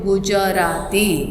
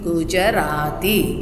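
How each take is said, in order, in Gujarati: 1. 'ja' અવાજ પૂરો બોલાય છે, એના સ્વર સાથે. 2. 'ja' અવાજ પૂરો બોલાય છે, એના સ્વર સાથે.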